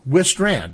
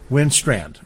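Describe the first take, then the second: First: No n sound comes before the s. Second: An n sound comes before the s. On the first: The speaker calls it right. "Actually, there's no N" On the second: The speaker calls it wrong. "I've given you an N"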